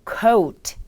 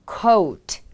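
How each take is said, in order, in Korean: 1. 모음은 o에서 u로 미끄러지듯 넘어가요. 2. 모음은 o에서 u로 미끄러지듯 넘어가요.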